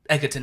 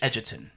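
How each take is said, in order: First: The g is said as a hard g. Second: The g is said as a soft j sound. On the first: This is how other people say the name. The speaker calls it wrong. "people pronounce my name uh, Egerton" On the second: This is how the name is really said. The speaker calls it right. "It's actually Edgerton"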